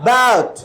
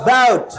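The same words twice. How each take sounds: No difference in how they are said.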